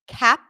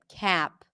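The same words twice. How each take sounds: First: The vowel is short, sharp and crisp. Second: The vowel is dragged out, loose and soft. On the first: "that is more crisp and light and short in British English" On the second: "In American English, you drag it a little bit"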